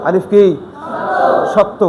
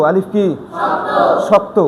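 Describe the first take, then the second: The two takes are said the same way.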